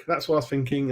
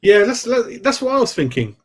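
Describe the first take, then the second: First: Said in the usual way. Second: Higher and louder, eager; bright burst of agreement to the chat; excited agreement. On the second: Real, not acted. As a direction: jump in keen, like you called it first. Excited reply to chat comment.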